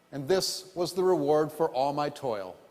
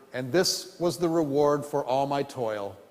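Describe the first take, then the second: No difference in how they are said.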